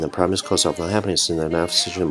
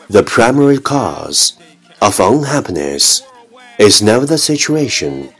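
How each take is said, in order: First: It is spoken very fast in one breath. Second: It is spoken at a moderate, careful pace.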